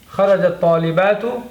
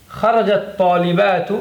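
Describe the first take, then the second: No difference in how they are said.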